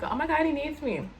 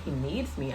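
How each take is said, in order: First: Higher-pitched retold oh-my-God moment; mock gushing realization. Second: Low, softer, doubtful echo; retold puzzled question. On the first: Retelling how she took being needed by him, gushing. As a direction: play up being taken with the idea. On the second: Retelling her doubt to the reader on the phone, puzzled. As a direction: query it quietly, unconvinced.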